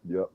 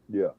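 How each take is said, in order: The two takes are said the same way.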